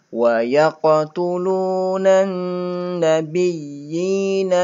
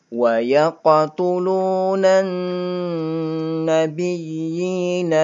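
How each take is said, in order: The two takes are said the same way.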